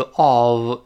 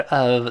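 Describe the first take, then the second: First: "of" stressed with a full, drawn-out O vowel; strong form of OF. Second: "of" unstressed with a reduced schwa; weak form of OF. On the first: Teacher showing the stressed reading, full vowel in "of". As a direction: say "of" slowly with a full rounded vowel. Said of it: "重读是of". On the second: Teacher showing the light reading, reduced vowel in "of". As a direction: say "of" lightly as "uhv". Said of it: "轻读是of". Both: Shown as a demonstration.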